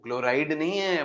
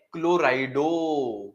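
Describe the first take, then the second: First: Said in the usual way. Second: क्लोराइडो stretched slowly, ending on a clear o; क्लोराइडो, slow with a stressed -o ending; saying the name right. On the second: Shown as a demonstration. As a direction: stretch क्लोराइडो and land on the final -डो.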